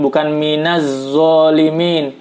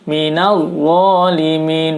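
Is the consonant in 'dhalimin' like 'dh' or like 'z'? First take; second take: z; dh. First: The consonant is a 'z' sound. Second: The consonant is a 'dh' sound. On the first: The speaker calls it wrong. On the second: The speaker calls it right.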